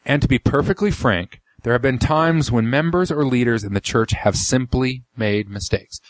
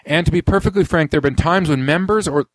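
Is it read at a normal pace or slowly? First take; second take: slowly; normal. First: It is read slowly and deliberately. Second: It is read at a normal pace.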